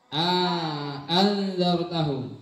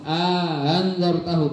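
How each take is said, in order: First: The second glottal stop is pronounced fully and clearly. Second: The second glottal stop is softened and eased. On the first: "Yang tahqiq" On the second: "dibaca yang tashil"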